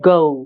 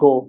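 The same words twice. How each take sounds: First: It is said in an American accent. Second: It is said in a Bengali accent. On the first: "আর এটা যদি আমেরিকানরা বলে কি হবে?" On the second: "আর আমরা বললে কি হবে?"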